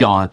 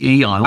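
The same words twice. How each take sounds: First: It is not said like the word eon. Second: It is said like the word eon. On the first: The speaker calls it wrong. "a lot of people pronounce it Aeon" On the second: The speaker calls it right. "but it's actually Aeon. I haven't seen you in eons"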